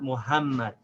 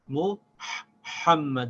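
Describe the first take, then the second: First: The middle h is a soft, light h. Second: The middle h is a hard, breathy h. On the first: The speaker calls it wrong. "not the soft H. It's not Muhammad" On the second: The speaker calls it right. "this ha in the word Muhammad is the hard H"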